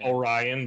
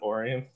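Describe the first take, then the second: First: It is pronounced the usual, non-local way. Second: It is pronounced the local Michigan way.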